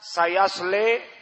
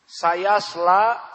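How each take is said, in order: First: The final vowel is tilted toward e. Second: The final syllable is light and plain. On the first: "seperti qiraah Al-Kisai" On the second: "seperti qiraah Hafs an Asim"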